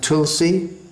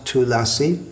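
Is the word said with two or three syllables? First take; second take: two; three. First: The word is said with two syllables. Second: The word is said with three syllables. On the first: This is the Hindi form. "in Hindi it's pronounced Tulsi" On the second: This is the Sanskrit form. "in Sanskrit it's pronounced Tulasi"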